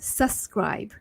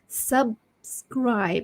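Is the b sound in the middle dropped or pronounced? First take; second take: dropped; pronounced. First: It is said fast with the b sound dropped. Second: It is said carefully with the b sound pronounced. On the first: The speaker calls it wrong. "when you speak too fast, you tend to say um, subscribe" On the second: The speaker calls it right. "it should be subscribe. So you have to say the B first"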